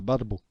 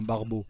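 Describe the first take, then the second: First: Barbeau with a rolled Arabic r, lightly; Arabic accent. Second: Said in the usual way. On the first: Shown as a demonstration. Explaining the slang word to viewers, in a light Arabic accent. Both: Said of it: "Je peux te le faire avec l'accent arabe".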